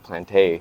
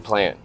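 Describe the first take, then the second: First: The name ends on an added vowel sound. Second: The name ends on a consonant sound. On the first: The speaker calls it wrong. "I always thought it was like Planté" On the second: The speaker calls it right. "That's how you pronounce that?"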